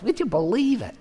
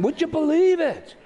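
First: Lightly imitated Cleveland accent, a bit higher. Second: Hammed-up Cleveland accent, pitched way up; exaggerated Cleveland catchphrase, incredulous. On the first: Older friend's catchphrase, a light Cleveland accent. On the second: Older friend turning him upside down, a broad Cleveland accent. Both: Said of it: "in a very sort of Cleveland voice".

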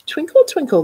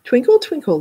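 First: Sing-song teacher. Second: Squeaky violin. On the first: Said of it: "said Missus Yamamoto". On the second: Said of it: "came squeaking through the breeze". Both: A narrator's reading.

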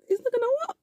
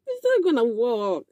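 First: It's not gonna work, much higher and softer with a rise; a sing-song, rising not gonna work; mocking high take. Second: Said in the usual way. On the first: Shown as a demonstration. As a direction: tease it up high. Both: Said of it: "repeated line, different takes".

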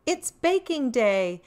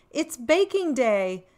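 No difference in how they are said.

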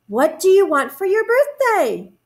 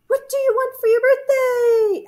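First: High, eager bear voice; storybook Bear. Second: Very high, held echo voice; echoing moon. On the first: Bear asks the moon about a present, high character voice. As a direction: ask keenly with lifted pitch. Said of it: "asked Bear". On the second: Moon echoes bear's question, very high echo voice. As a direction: throw the question back like an echo. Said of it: "asked the moon". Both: A narrator's reading.

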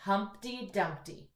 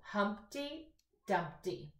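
First: Put-on slow model line for kids to repeat; teacher modelling a line for echo reading. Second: Slow read-aloud. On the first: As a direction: read "Humpty Dumpty" slowly so they can echo. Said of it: "echo reading". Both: Shown as a demonstration.

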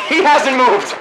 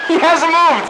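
First: Laughing disbelief. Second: Yelled disbelief. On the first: Laughing at a camper. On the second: Repeats it yelled. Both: Real, not acted.

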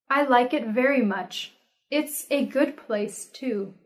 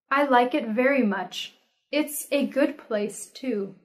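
No difference in how they are said.

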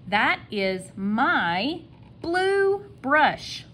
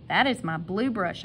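First: High, very slow "That is my blue brush", word by word; slow dictation. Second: Said in the usual way. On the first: Shown as a demonstration. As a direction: stretch each word in a higher voice. Teacher models the sentence slowly. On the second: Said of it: "I'm not asking a question".

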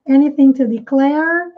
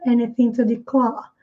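First: "declare" with the final r curled, American style; "declare" ending in a retroflex r; American r sounded. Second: Non-rhotic British "declare"; British dropped r. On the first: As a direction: say "declare" rolling the r at the end. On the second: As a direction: drop the r in "declare" and stretch the vowel, British style. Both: Shown as a demonstration. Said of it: "Um pouco mais aberto esse A e o R".

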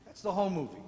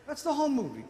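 First: Said in the usual way. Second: "the" raised and leaned on; punchline stress. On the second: Shown as a demonstration. Preacher repeating the punchline to the congregation, leaning on "the". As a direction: hit "the" on the repeat. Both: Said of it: "repeated punchline".

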